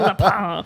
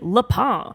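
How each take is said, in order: First: It is said with a French accent. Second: It is said with an English accent.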